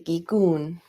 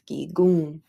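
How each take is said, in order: First: The word ends with a pronounced n consonant. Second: The word ends in a nasalized vowel, no n. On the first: The speaker calls it wrong. "You don't say gigun" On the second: The speaker calls it right. "it's gigun"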